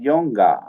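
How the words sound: It is said in a British accent.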